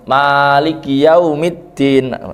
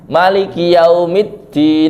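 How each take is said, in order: First: The first vowel of Maliki is long. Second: The first vowel of Maliki is short. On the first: It means owner. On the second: It means king.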